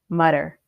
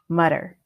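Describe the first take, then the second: First: The middle consonant is a d sound. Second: The middle consonant is a d sound.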